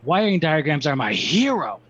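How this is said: It is said in an excited voice. The speaker calls it right.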